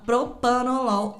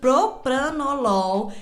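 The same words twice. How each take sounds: First: It is the common, everyday simplified pronunciation. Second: It is the full, carefully articulated pronunciation. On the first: The speaker calls it wrong. "todo mundo fala propranolol, inclusive eu" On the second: The speaker calls it right. "eu tô falando desse jeito"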